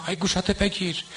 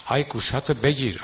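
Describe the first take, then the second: First: Higher mock eulogist's wail on گوشاتو; آی گوشاتو بگیر sung out high and falling, mocking. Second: Mocking a eulogist. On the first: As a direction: parody the singer's call, pitch lifted high on گوشاتو. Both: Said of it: "مداحی که بیاد مسخره در بیاره".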